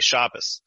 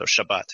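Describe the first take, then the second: First: The word ends with an S sound. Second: The word ends with a T sound. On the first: "it shifts the T sound to an S" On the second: "in Hebrew, the Sabbath is the Shabbat"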